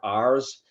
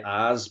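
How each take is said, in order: First: The r sound is clearly pronounced. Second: The r sound is dropped, Boston style. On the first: The speaker calls it right. "but they are R's" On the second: The speaker calls it wrong. "my Boston accent wants to keep telling me it's the three R's"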